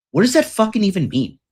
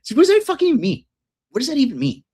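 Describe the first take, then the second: First: Higher, fast baffled question about What does that fucking even mean; a rich friend who can't even parse it. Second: Much higher, fast amused disbelief on what does that fucking mean; incredulous echo. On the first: Retold or imitated. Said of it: "He's like". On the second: Real, not acted. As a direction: echo the friend's confusion in gleeful disbelief. Echoing friend's baffled reply.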